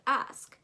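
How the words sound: It is said with an American accent. "you want to sound American, um, you would say ask"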